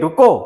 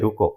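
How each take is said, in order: First: The word is said loudly and forcefully. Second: The word is said softly and gently. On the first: The speaker calls it right. "आप बोलेंगे रुको" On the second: The speaker calls it wrong. "धीरे से नहीं बोलेंगे"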